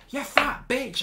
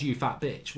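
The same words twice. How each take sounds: First: High, taunting schoolboy insult; imitating a boy's taunting jibe; mock insult. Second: Said in the usual way. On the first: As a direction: throw it up high like a kid lashing out. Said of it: "he starts going". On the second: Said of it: "his only line was".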